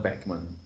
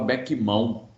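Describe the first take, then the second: First: The name ends in a 'man' sound. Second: The name ends in a nasal 'ão' sound. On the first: This is how it is said today. "hoje a gente fala Beckman" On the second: This is how it used to be said. "antigamente a gente falava Beckmão"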